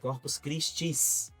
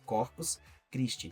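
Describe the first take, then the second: First: The last word ends with an s sound. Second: The last word ends without an s sound. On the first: The speaker calls it wrong. "Com S no final" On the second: The speaker calls it right. "Essa é a pronúncia certa"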